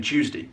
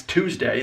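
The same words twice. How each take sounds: First: "Tuesday" as CHOOZ-dee; Southern pronunciation. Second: "Tuesday" as TOOZ-day; plain T opening "Tuesday"; standard pronunciation. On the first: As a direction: slur "Tuesday" to start on CH. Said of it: "They're just saying Tuesday". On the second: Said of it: "in their mind, that's Tuesday". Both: Shown as a demonstration.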